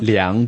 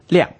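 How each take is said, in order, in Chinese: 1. 读的是动词的声调。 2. 读的是名词的声调。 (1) "如果嗰一个字咧系去作为一个动词啦，去量度啊或者量尺咧，咁就系用一个量" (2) "如果佢系一个成个字整个字是属于一个名词的话呢，质量呢咁就是读"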